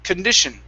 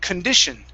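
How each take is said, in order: Both takes have the same delivery.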